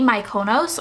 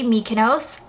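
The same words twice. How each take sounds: First: Mykonos as my-KOH-nohss, rising; "Mykonos" starting like "my"; option B pronunciation. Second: Mykonos as MEE-kuh-nohss, rising; "Mykonos" starting like "me"; option A pronunciation. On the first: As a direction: say "Mykonos" with MY, then stressed KOH. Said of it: "you can teach me how to say it". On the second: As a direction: say "Mykonos" with a stressed MEE first. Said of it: "is it A". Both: Shown as a demonstration.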